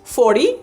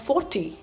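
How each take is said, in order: First: It is said with an American accent. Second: It is said with a semi-British, Indian-influenced accent.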